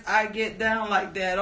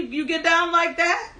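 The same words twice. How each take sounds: First: Said in the usual way. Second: High, laughing disbelief; amused high-pitched teasing question; laughing tease. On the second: Real, not acted. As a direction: tease them through a laugh. Teasing a chatter who asks for song.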